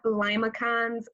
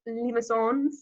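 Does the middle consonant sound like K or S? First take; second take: K; S. First: The middle consonant is a hard K sound. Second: The middle consonant is a soft S sound. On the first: The speaker calls it wrong. "So it's not limacons" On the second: The speaker calls it right. "it sounds like an S"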